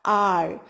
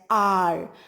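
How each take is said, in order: First: The word begins with a vowel, h silent. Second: The same.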